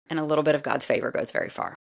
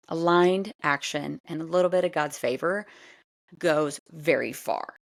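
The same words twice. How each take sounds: First: Said in the usual way. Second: "Aligned action and a little bit of God's favor goes very far" ağır ve vurgulu, sonda yavaşlayarak; emphatic repeat. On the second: Shown as a demonstration. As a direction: her kelimeyi bastırarak tekrar et. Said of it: "repeated for emphasis".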